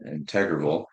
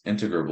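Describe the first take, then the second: First: InTEGrable, stressed on the second syllable; alternative pronunciation. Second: INtegrable, stressed on the first syllable; first pronunciation. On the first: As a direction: say integrable as in-TEG-ruh-bul. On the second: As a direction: say integrable as IN-tuh-gruh-bul. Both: Shown as a demonstration. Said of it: "I've heard it both ways".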